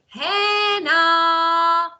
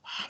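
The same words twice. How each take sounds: First: The name is said aloud, loudly. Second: The name is whispered softly.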